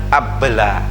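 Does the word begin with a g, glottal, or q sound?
glottal. The word begins with a glottal catch. "Kalau orang Mesir bacanya abla"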